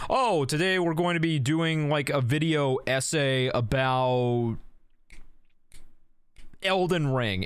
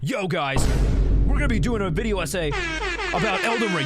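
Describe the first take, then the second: First: It is said in a calm, low-energy way. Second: It is said in a hyped, high-energy way.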